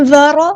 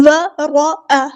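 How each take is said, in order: First: ورأ with a sharp clear ء, louder; crisp hamza stop. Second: ورأ with the hamza blurred; the mistaken way; wrong reading. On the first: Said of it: "حمزہ کی آواز واضح ادا کرنی ہے". (ہمزہ واضح اور صاف) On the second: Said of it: "ورأ نہیں کرنا". (غلط انداز، ہمزہ دبا ہوا) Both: Shown as a demonstration.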